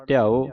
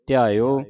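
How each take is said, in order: First: ਧਿਆਓ cut short, ending like u. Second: ਧਿਆਇਓ with y-glide into an open o; full o ending. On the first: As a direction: say ਧਿਆਓ quickly, without drawing out the ending. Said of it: "ਜੇ ਆਪਾਂ ਪੜ੍ਹਦੇ ਹਾਂ". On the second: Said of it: "ਥੋੜ੍ਹਾ ਲੰਮਾ ਕਰਕੇ". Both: Shown as a demonstration.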